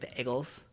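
The first vowel sounds rushed and clipped. "everyone's like ... very rushed EA"

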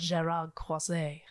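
The name is said with a French accent.

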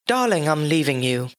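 It is said in a British accent. The speaker calls it right.

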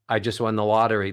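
The pitch stays level on one note. The win sounds small and unimportant. "If you just do it monotone"

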